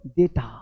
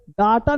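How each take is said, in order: First: डेटा said lower with an e vowel, deta; correct pronunciation. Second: डाटा said with an open aa, daata; wrong pronunciation. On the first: Teacher modelling the right डेटा. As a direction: say डेटा low with a short e. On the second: Teacher showing the wrong डाटा. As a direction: open the first vowel of डाटा wide. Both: Shown as a demonstration. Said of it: "डाटा नहीं बोलते".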